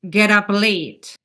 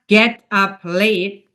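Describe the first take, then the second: First: The p sound links smoothly into the next word. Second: Each word is pronounced separately, not linked. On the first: The speaker calls it right. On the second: The speaker calls it wrong.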